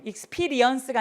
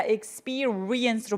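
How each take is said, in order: First: "experience" run through quickly as ik-SPI-ri-ens; single-vowel pronunciation. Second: "experience" as ik-SPEE-REE-ens, drawn out; two-vowel pronunciation. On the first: Teacher showing students the wrong way, single-vowel pronunciation. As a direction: say "experience" without separating the R. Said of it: "experience가 아니라 experience로". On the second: Teacher correcting students' word, two-vowel pronunciation. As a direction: separate both vowels in "experience". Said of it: "모음이 두 개예요". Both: Shown as a demonstration.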